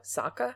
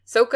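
First: Sokka with an open ah vowel, asked softly; Sokka said as SAH-ka, quiet rising question; Sokka like the cartoon says it, SAH-ka; show pronunciation. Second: Sokka with a long oh, SOH-ka, said firmly; Sokka as SOH-ka, louder with a falling close; Sokka the movie way, SOH-ka; movie pronunciation. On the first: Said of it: "how do they say it in the show". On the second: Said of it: "Is that how they say it in the movie". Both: Shown as a demonstration.

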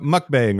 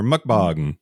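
First: "mukbang" with the A of "bang"; first pronunciation variant. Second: "mukbang" ending like "bong"; second pronunciation variant. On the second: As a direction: say the end of "mukbang" with an open "ah". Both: Shown as a demonstration. Offers two pronunciations of word.

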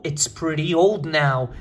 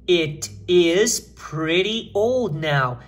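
First: Measured, connected reading; slow model repeat. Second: Each word drawn out separately; very slow model reading. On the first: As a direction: read it steadily with the contraction. Repete a frase modelo contraída. (leitura pausada e mais ligada) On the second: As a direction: read it out very slowly for learners. Lê a frase modelo por extenso. (leitura modelo bem lenta, palavra por palavra) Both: Shown as a demonstration.

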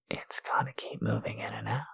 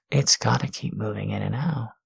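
First: Soft unvoiced whisper. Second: Said in the usual way. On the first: Shown as a demonstration. Teasing partner whispers the instruction. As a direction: breathe it as a whisper. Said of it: "repeated aloud". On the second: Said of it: "repeated whispered".

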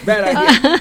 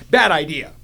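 First: Bad idea repeated through a laugh; amused rueful repeat. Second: Said in the usual way. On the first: Shown as a demonstration. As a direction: laugh it out the second time.

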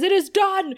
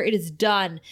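First: Much higher and louder verdict; loud demon verdict. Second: Said in the usual way. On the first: Acted. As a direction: boom it out as final.

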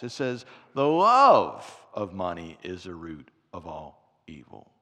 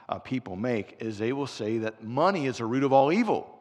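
First: Low, weighty correction, slowing on the last words; corrected quote. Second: Said in the usual way. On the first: Shown as a demonstration. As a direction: say the true verse with gravity. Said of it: "No, no, no. It's not what the Bible says". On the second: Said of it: "No, no, no".

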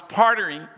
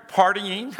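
First: "partying" tripped over, garbled as "partering"; stumbled word. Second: Said in the usual way. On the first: Real, not acted. Preacher retelling his first testimony, fumbling "partying" as "partering". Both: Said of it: "I can't even say it".

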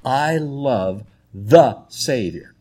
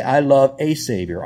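First: Slow, with "the" set apart as "thuh"; stress on "the". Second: "a" said as a full "ay"; stress on "a". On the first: Preacher pointing out the article, stress on "the". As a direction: weigh the word "the" heavily. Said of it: "Notice the word "the". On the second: Preacher showing the wrong article, stress on "a". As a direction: pick out "a" as the contrasting word. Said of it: "It doesn't say". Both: Shown as a demonstration.

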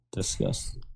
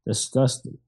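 First: Breathy whispered disgust, lower. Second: Said in the usual way. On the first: Acted. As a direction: whisper "Disgusting." low and unvoiced.

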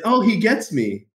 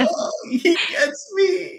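First: Milder, higher-pitched moved exclamation; a touch of being moved, voice lifted; touched, tearing up. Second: Very high, drawn-out mock-tearful squeak; hammed-up teary voice, slow and high; tearing up. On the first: Retold or imitated. Retelling the moment his mentor understood him, lightly touched. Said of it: "I'm tearing up thinking about that". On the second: Telling how being understood moved him, mock tearful. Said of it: "I started, like, tearing up".

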